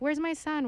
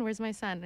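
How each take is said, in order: First: Lightly voiced father, higher and louder; mock worried dad. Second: Said in the usual way. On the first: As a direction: ask with hammed-up alarm. Father asks for his son.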